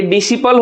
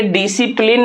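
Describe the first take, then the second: First: डिसिपल ending in "-pal"; डिसिपल with silent C and no N; corrected reading. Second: डिसिप्लिन ending in "-plin"; डिसिप्लिन read as "di-si-plin"; mistaken reading. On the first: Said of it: "ये डिसिपल होगा". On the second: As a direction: say डिसिप्लिन with a final N, as in discipline. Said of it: "ये डिसिप्लिन नहीं होगा". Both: Shown as a demonstration.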